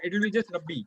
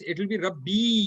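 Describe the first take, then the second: First: The final vowel is short. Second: The final vowel is held long. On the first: It means Lord, without my. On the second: It means my Lord. "You will pronounce it as two harkat"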